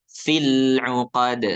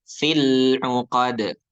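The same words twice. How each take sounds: The two takes are said the same way.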